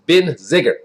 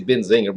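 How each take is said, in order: First: "Benziger" with no n before the g; corrected pronunciation. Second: "Benzinger" said with an added n before the g; usual mispronunciation. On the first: Correcting own slip in the winery's name, carefully pronounced. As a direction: say "Benziger" as ben-zig-er, dropping the middle n. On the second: Admitting a habitual slip in the winery's name, mispronounced. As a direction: say "Benzinger" with a ng in the middle. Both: Shown as a demonstration. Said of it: "I always say Benzinger, but it's Benziger".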